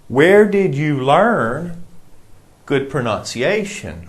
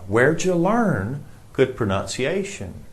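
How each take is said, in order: First: Each word of 'where did you' is said separately. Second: 'Where did you' is squeezed into 'where'd ya'. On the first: "It means where did you?" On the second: "where'd ya?"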